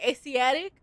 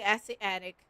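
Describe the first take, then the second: First: The word sounds like 'Asiatic'. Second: The word sounds like 'acid addict'. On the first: The speaker calls it right. "how did he say it again?" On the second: The speaker calls it wrong. "I'm gonna say acid addict. I don't know other way to say it"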